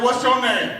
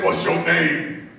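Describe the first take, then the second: First: High, loud challenge thrown back; mock-tough comeback, pitched up; no punk. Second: Slow, loud, drawn-out demand; big cellmate. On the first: Younger sister challenges her big cellmate, high and mock-tough. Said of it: "I wasn't no punk". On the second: Retold or imitated. Big cellmate questions the new girl in jail, slow and imposing. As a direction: size up a new inmate, heavy and slow. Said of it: "my cellmate was this big girl".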